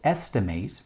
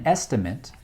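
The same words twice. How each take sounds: First: It is pronounced the way the verb is. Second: It is pronounced the way the noun is. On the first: It names the act of roughly calculating. "pronounced estimate when used as a verb" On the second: It names the rough calculation itself. "and estimate when used as a noun"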